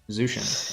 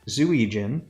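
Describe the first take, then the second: First: The name is said like 'Zushin'. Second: The name is said like 'Zuijin'. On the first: The speaker calls it right. "I just pronounce it Zushin" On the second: The speaker calls it wrong. "I'll cut me saying it the wrong way"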